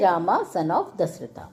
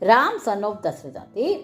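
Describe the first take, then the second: First: The name ends with an added 'a' vowel sound. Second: The name ends without a final vowel sound.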